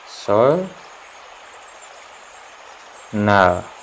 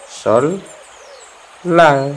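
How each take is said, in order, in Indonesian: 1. Suku kata kedua dimulai dengan bunyi n. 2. Suku kata kedua dimulai dengan bunyi l. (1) "ini jelek" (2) "maka dibacanya itu sol lal ya"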